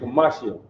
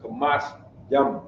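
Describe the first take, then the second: First: The word is said in a casual, run-together form. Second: The word is said in its careful, full form. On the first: This is how people commonly say it in dialect. "Now you know what you're gonna hear" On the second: This is the standard form. "I'm giving you the proper pronunciation"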